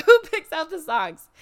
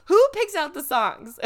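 First: Loud question through a laugh; laughing repeat. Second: Loud, high disbelief; loud exasperation; exasperated loud question. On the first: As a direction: laugh it out, louder. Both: Real, not acted.

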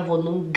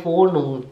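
First: Wohnung ending in a popped G; hard G. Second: Wohnung ending in throat ng, no G; soft NG. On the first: Teacher shows the mistake, Wohnung with audible G. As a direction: release a hard G after Wohnung. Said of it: "com som aqui na garganta". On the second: Teacher shows what is said, Wohnung with soft NG. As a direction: leave the G of Wohnung unreleased. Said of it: "a gente fala". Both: Shown as a demonstration.

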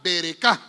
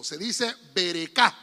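First: Berecá, louder with the final a stressed. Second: Berecá with stress on the last a. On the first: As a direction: repeat berecá, hitting the final a. (berecá con énfasis en la última a) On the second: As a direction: say berecá, stress on the final syllable. (berecá con acento en la última a) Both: Shown as a demonstration. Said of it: "con acento en la última A".

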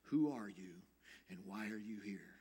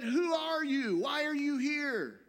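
First: Low, softened questions from the rabbi; quiet, low and searching; gentle. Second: Very high, loud sentry's shout; challenging soldier. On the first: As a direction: ask it gently, dropping to a hush. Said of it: "very gently he said". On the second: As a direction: bellow it as a guard's challenge. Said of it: "a soldier steps out from the shadows with a gun". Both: Retold or imitated.

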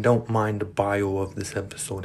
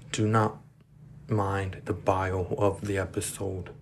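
First: Said in the usual way. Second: "do not" set apart by a pause, then slow; emphatic DO NOT. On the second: Real, not acted. Podcaster warns Spotify listeners, "do not" separated and emphatic. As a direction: say "do not" firmly, pause, then slowly finish.

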